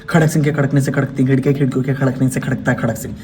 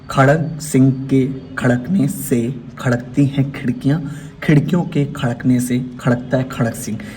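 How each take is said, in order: First: It is spoken at a fast pace. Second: It is spoken at a slow pace. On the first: "फिर fast" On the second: "पहले slow"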